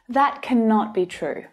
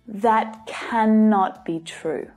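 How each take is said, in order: First: Only some words carry strong stress. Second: Every single word carries strong stress. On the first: The statement is emphatic. "especially to add emphasis to make the meaning stronger" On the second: The statement is even more dramatic. "make it even more dramatic by stressing every single word"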